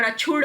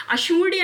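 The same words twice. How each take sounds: First: अछूड़ said "achhood"; correct form. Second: अछूड़्य said "ashoodiya"; sh and a final "iya" in अछूड़्य; higher अछूड़्य ending in a y glide; wrong form. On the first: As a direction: chh and no "iya" in अछूड़. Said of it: "पर अछूड़ होता है". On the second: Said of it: "अछूड़्य नहीं होता". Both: Shown as a demonstration.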